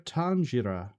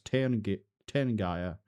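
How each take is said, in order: First: The word is said with its Irish pronunciation. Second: The word is sounded out by English spelling rules. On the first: The speaker calls it right. "Apparently, it's pronounced" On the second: The speaker calls it wrong. "as if you read it literally in English"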